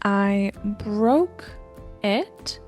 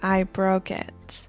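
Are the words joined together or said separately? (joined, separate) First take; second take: separate; joined. First: Each word is said separately, without linking. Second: The consonant links smoothly into the next vowel.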